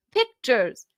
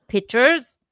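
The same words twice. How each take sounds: First: Said in the usual way. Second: "pictures" with the k dropped, pitched high and loud; "pictures" as pitchers. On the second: Shown as a demonstration. Correcting the friend's Southern word, "pictures" said loudly as "pitchers". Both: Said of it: "not pictures".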